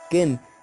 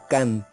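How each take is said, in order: First: The vowel sounds like e. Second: The vowel sounds like a. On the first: The nest stands for impurity. "se pronuncia como ken" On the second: The nest stands for holiness. "ahora se pronuncia como can"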